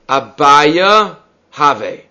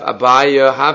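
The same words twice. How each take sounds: First: It is said slowly, with a break between words. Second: It is run together with no break between words.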